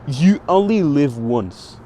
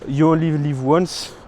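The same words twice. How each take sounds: First: It is said with an English accent. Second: It is said with a French accent.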